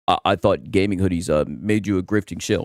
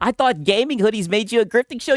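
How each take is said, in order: First: It is said in a put-on accent. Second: It is said in his normal voice.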